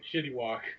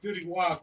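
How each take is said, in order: First: The first word begins with an sh sound. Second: The first word begins with a plain s sound. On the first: The speaker calls it wrong. "he pronounces it shitty walk" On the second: The speaker calls it right. "It's supposed to be city walk"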